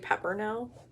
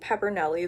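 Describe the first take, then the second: First: The name ends on the 'l' sound. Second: The name ends with an added 'ee' sound. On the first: This is how the name is actually said. The speaker calls it right. "it's actually Peppernell" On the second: This is how the speaker has been saying the name. The speaker calls it wrong. "Have I been saying Peppernelly this whole time"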